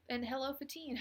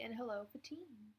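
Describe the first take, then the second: First: Said in the usual way. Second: A whispered hello, no voice. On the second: Real, not acted. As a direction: breathe the greeting, unvoiced. Repeats greeting to chat viewers.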